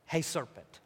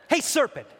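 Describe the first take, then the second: First: Low, quiet try at an Italian mobster; half-hearted Italian-accent Godfather attempt. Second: Put-on higher challenge to the serpent, no accent; confronting in own voice. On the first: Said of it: "in an Italian accent or something". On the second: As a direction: call out the snake as yourself. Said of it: "I'm just gonna be me".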